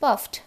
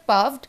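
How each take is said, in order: First: "puffed" ending in a crisp FT; voiceless T closing "puffed"; correct T ending. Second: "puffed" ending in a voiced VD; wrong D ending. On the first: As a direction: say "puffed" as "puft". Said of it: "it will sound like". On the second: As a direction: say "puffed" as "puvd". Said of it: "it is not puffed". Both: Shown as a demonstration.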